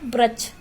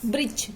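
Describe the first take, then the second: First: "वृक्ष" said as brachh, ra replacing ri; incorrect pronunciation. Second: Said in the usual way. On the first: Shown as a demonstration. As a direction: turn the ri of "वृक्ष" into a plain ra. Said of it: "अशुद्ध शब्द कैसे रूप में कैसे हो गया". ("वृक्ष" में री की जगह र बोलें) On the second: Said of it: "वृक्ष शब्द शुद्ध शब्द है".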